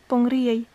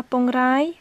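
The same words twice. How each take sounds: First: Pongriei with the vowel gliding "ri-ei"; correct pronunciation. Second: Pongrai said with a plain "rai" vowel; wrong pronunciation. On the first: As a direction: say Pongriei, ending on "riei" not "rai". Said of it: "mais Pongriei". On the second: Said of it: "Ce n'est pas Pongrai". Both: Shown as a demonstration.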